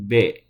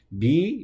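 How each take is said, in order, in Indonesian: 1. Huruf b diucapkan polos, tanpa vokal. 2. Huruf b diikuti vokal i yang jelas. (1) "jangan b" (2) "seperti membaca konsonan i"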